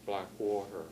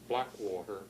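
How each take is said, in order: First: The stress falls on the second part. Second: The stress falls on the first part. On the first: This carries a native language's stress rule into English. "with the some algech stress pattern" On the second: This is the usual English pronunciation. "normally pronounced in English"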